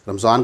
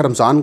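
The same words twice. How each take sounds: First: رمضان said the Arabic way as ramadan, with a d sound; رمضان as ra-ma-dan, in three syllables; Arabic pronunciation. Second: رمضان said the Urdu way as ramzan, with a z sound; رمضان as ramzan, in the usual local form; Urdu pronunciation. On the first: Speaker shows listeners the Arabic form, رمضان as ramadan. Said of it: "عربی میں ایک تلفظ رمضان کرنے کی کوشش کی". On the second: Speaker gives listeners the local form, رمضان as ramzan. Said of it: "رمضان کا ایک تلفظ رمضان ہے". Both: Shown as a demonstration.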